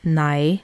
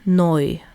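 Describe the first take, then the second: First: The vowel is said like 'eye'. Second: The vowel is said like 'oy'. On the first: This is the usual pronunciation. "the word for no in Faroese is nei" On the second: This is how northern speakers say it. "people will say noi for that"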